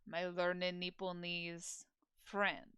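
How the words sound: It is said with a pause inside.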